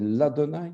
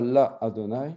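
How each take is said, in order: First: The vowel merges into Adonai without a break. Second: A separate vowel is said before Adonai. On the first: The speaker calls it right. "c'est l'Adonai" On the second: The speaker calls it wrong. "On ne dit pas la Adonai"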